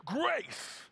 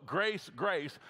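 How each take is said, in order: First: GRACE stretched out long with a swooping pitch; emphatic GRACE. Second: Said in the usual way. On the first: Shown as a demonstration. Preacher corrects the flat reading for his congregation, drawn-out emphatic GRACE. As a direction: draw out GRACE like a celebratory shout. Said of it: "It's not grace, grace, it's grace". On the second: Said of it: "It's not grace, grace".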